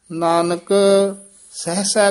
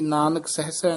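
First: Nanak set apart, then Sahasa; pause after Nanak. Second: Nanak Sahasa quickly, with no break; words run together. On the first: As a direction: chant Nanak, stop briefly, then Sahasa. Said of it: "Nanak ਪਦ ਤੇ ਯਮਕ ਲਾ ਦੇਣੀ". (ਨਾਨਕ ਤੇ ਯਮਕ, ਫਿਰ ਸਹਸਾ) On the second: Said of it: "ਨਹੀਂ ਕਹਿਣਾ ਹੈ". (ਨਾਨਕ ਸਹਸਾ ਬਿਨਾਂ ਵਿਰਾਮ) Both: Shown as a demonstration.

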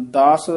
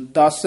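First: ਦਸ with a longer open vowel, "dās"; soft, open vowel. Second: ਦਸ short and tight, "dass"; tight short vowel. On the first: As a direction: let ਦਸ open out loosely. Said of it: "ਪੋਲਾ ਬੋਲਣਾ ਹੈ". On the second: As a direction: clip the vowel of ਦਸ and press the s. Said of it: "ਦਸ ਨਹੀਂ ਕਹਿ ਦੇਣਾ ਇਹਨੂੰ". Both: Shown as a demonstration.

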